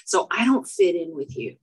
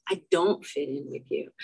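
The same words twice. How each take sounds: First: Said in the usual way. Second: Softer, sadder repeat. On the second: Real, not acted. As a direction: lower and quieter, hurt.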